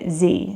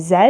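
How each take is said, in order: First: It is said with an American English pronunciation. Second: It is said with a British English pronunciation. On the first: "in American English they call the last letter of the alphabet" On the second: "In British English we say"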